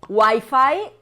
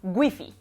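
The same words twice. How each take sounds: First: The word is said with English-style sounds. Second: The word is said with Spanish-style sounds.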